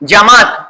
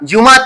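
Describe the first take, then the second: First: The first vowel is an 'a' sound. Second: The first vowel is a 'u' sound. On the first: The speaker calls it right. "इसका तलफ़ुज़ इख्तियार करेंगे जमात" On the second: The speaker calls it wrong. "जुमात नहीं"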